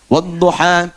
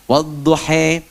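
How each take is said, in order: First: Final vowels are an open 'a', without imalah. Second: Final vowels are fronted to 'e', Levantine imalah style.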